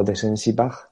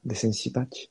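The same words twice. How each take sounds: First: "Bach" con jota española final, como "baj"; pronunciación dudosa. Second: "Batch" con "ch" española final, como "bach"; pronunciación alternativa. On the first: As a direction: probar "Bach" acabado en sonido de jota, subiendo el tono. ("Bach" pronunciado "baj", con la jota al final) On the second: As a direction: probar "Batch" acabado en "tch", subiendo el tono. ("Batch" pronunciado con "ch" fuerte de "chico" al final) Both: Shown as a demonstration. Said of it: "la pronunciación".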